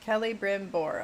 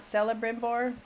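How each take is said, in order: First: The name begins with a hard K sound. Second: The name begins with a soft S sound. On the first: The speaker calls it right. "Kella with K" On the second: The speaker calls it wrong. "not Celebrimbor"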